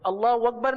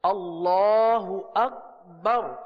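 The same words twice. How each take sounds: First: Akbar starts with a w sound, like wakbar. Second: Akbar starts with a clear glottal stop. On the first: The speaker calls it wrong. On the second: The speaker calls it right.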